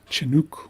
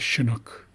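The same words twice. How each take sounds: First: It begins with ch and has an oo vowel. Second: It begins with sh and has an uh vowel. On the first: "some people use a, ch, ... and some people use an oo" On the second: "pronounce this as an sh and this u as an uh"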